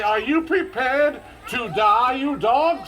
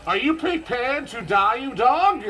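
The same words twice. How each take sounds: First: Slower, drawn-out dramatic challenge. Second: Dramatic challenge. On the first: Showing the kids the dare again, slow and dramatic. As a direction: ham up the dare with all the drama. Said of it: "What the heck was that?". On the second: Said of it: "with all the drama in your heart". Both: Shown as a demonstration.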